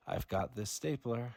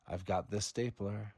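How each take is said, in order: Both takes have the same delivery.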